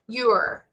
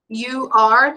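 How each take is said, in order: First: The words are squeezed into one short syllable. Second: Both words are said fully and separately.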